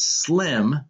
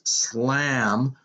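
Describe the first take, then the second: First: The vowel is short and high, as in 'slim'. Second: The vowel is open, as in 'slam'. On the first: This is the intended street name. "her street name, which was Slim" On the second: This is how a drunk woman said the name. "the way she pronounced it was Slam"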